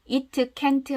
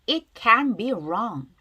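First: "It can't" with each T released as an extra syllable, "i-teu caen-teu"; wrong-way demo of "It can't", every T sounded out; over-pronounced final T. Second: "It can be wrong" slowly, the T of can't all but silent; swallowed final T. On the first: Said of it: "하지 마시고요". ("It can't"를 "이트 캔트"처럼 트를 살려 잘못 발음) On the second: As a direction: model "can" running straight into "be", no released T. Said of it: "자, 발음 다시 하면". ("can't"의 트를 거의 안 들리게 "can be"처럼 이어서 발음) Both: Shown as a demonstration.

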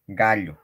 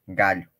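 The two takes are said the same way.

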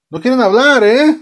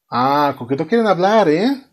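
First: Louder, higher, rising demand; mock angry yell. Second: Rising, needling question; mock menace. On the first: Father presses his silent children, hammed-up angry. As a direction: play a dad escalating into a hammed-up yell. Acted father repeats it, escalating. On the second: Father presses his silent children, mock menace. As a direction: play a dad starting to lose patience.

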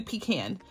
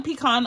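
First: "pecan" said pee-KAN, short "a" as in "can"; pecan with a flat "a", pee-KAN; option two: pee-KAN. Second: "pecan" said pee-KAHN, ending like "con"; pecan with a broad "ah", pee-KAHN; option one: pee-KAHN. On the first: Quizzing viewers on how to say it: "pecan" as pee-KAN. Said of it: "Option two". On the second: Quizzing viewers on how to say it: "pecan" as pee-KAHN. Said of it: "Option one". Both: Shown as a demonstration.

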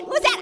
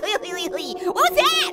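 First: Said in the usual way. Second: Slow drawn-out question. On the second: Pretend. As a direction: stretch every word out very slowly. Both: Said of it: "I'm the one that laughs".

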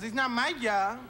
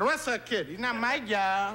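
First: Put-on light Puerto Rican accent, dismissive; Puerto Rican manager. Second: Put-on slow, lazy Puerto Rican accent; Puerto Rican cop. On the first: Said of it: "He goes".

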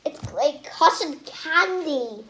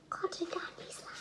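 First: Said in the usual way. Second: Whispering cotton candy slime softly; whispered. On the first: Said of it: "repeated in a whisper". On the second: Shown as a demonstration. Kid whispers the slime name to viewers. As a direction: hush it to the camera. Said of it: "whispered repeat".

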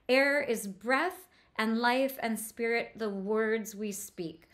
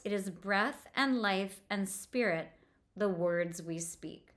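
First: "breath and life and spirit" drawn out, each "and" lingered on; slowed on the ands. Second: Said in the usual way. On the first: Shown as a demonstration. Teacher to class, showing how "and" slows the sentence. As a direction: let each "and" slow the line down. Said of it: "It slows everything down at the end".

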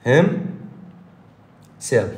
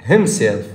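First: Himself stretched slowly, each sound clear; drawn-out model word. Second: Said in the usual way. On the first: Shown as a demonstration. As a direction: say himself long and careful for the class to copy. (himself ممدودة ببطء للتلقين) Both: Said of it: "شلون أقول نفسه؟".

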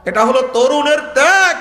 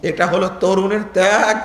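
First: Higher, more forceful, climbing to ত্যাগ; emphatic proclamation. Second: Said in the usual way. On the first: Real, not acted. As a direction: proclaim it to the crowd, ringing out on ত্যাগ. Same line repeated with rising force. (উঁচু গলায় জোরালো ঘোষণা)

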